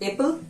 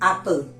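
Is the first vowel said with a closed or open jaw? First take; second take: closed; open. First: The first vowel is said with little jaw opening. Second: The first vowel is said with the jaw lowered. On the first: The speaker calls it wrong. "बहुत सारे बोलते हैं एप्पल, no" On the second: The speaker calls it right. "इसको थोड़ा सा नीचे गिराइए"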